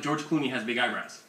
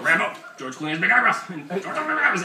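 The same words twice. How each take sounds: First: Said in the usual way. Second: Loud, high nonsense reprimand; mock dog scolding. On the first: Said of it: "like, you could say, like". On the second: Shown as a demonstration. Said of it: "So you go".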